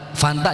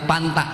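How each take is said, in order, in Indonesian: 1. Konsonan pertama adalah bunyi f. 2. Konsonan pertama adalah bunyi p.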